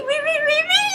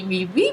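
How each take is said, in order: First: Squeaky high really. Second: Said in the usual way. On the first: Shown as a demonstration. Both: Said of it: "really repeated for emphasis".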